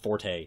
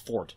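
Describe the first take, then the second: First: The word is said with two syllables. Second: The word is said as one syllable. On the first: People say it this way to sound smart. The speaker calls it wrong. "not forte" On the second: This is the original, traditional pronunciation. The speaker calls it right. "classical pronunciation of that is is ju- is fort"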